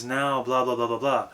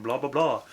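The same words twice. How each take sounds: First: "blah, blah, blah, blah" lifted up, airy and light; airy head resonance. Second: Projected theater voice. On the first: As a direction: send "blah, blah" up through the top of the head. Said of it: "project more upward and airy". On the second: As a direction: project "blah, blah, blah" to the back wall. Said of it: "This is my theater voice". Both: Shown as a demonstration.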